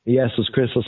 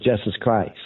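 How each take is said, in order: First: Jesus Christus said as "YES-us KRIS-tus"; Latin pronunciation. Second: Said in the usual way. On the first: Shown as a demonstration. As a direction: open Jesus with a Y sound, short i in Christus. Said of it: "of Jesus Christ". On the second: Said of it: "of Jesus Christus".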